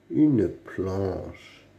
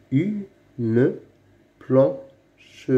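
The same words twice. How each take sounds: First: Said in the usual way. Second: "Une" and "planche" said apart with a pause between; slow split reading of "Une planche"; word by word. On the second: Shown as a demonstration. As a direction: read "Une … planche" one word at a time. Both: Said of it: "lis les mots".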